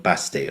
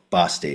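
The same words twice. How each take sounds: First: "Basti" with a short flat a, as in cat; first pronunciation. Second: "Basti" with an open ah; alternative pronunciation. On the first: Host naming an imagined boy, "Basti" with short a as in cat. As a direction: say "Basti" to rhyme with nasty, short a. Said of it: "however they say it". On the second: Host trying the boy's name another way, "Basti" with ah. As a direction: say "Basti" as BAH-stee. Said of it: "however they say it in his accent". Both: Shown as a demonstration.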